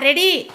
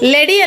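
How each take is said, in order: First: The word begins with an R sound. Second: The word begins with an L sound. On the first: The speaker calls it right. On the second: The speaker calls it wrong. "ಲೆಡಿ ಅಲ್ಲ"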